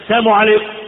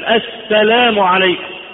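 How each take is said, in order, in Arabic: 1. صوت اللام في 'salam' يُبتلع ويختفي. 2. صوت اللام في 'salam' يُنطق بوضوح. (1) "الناس يقول هذه الكلمة ولا يدري معناها" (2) "مفروض انك انت تميز كلمة السلام"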